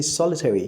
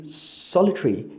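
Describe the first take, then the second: First: SOLITARY said as "SOL-a-terry", all four syllables; schwa rendered. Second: SOLITARY said as "SOL-i-tree", schwa dropped; schwa omitted. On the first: Teacher contrasting the full form of solitary, schwa rendered. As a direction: sound out the -TER- in SOLITARY. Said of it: "rendered the schwa". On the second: Teacher demonstrating omitted schwa in solitary, schwa omitted. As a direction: drop the vowel before -ry in SOLITARY. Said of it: "you've omitted the schwa". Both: Shown as a demonstration.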